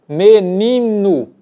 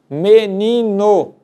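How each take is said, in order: First: The final vowel is reduced to a U sound. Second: Spoken slowly, the final vowel keeps a clear O. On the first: "perdemos a intensidade na pronúncia e terminamos dizendo" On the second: "quando nós falamos pausadamente"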